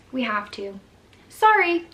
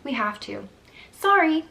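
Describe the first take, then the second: First: Imitating the nurse's quick dismissive "We have to. Sorry," with "Sorry" popped much higher and louder; a snippy, throwaway "Sorry" tossed over the shoulder; mock nurse brushing off the worried mom; curt brush-off. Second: Repeating the nurse's dismissive "We have to. Sorry," with "Sorry" jumping much higher and louder; retold nurse's careless "Sorry" as she walks off; mock nurse shrugging off the mother; curt brush-off. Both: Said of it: "that's literally how she said it".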